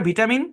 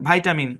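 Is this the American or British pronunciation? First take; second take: British; American. First: The first syllable sounds like 'vit'. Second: The first syllable sounds like 'vite'. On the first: "ব্রিটিশরা করে ভিটামিন" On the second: "আমেরিকানরা করে ভাইটা- ভাইটামিন"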